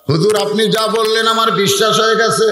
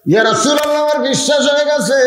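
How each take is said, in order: First: Said in the usual way. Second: High, ringing chanted affirmation; acted fervour, pitched right up; fervent declaration. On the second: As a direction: proclaim belief in a high preacher's cry. Declaration repeated as exultant high cry.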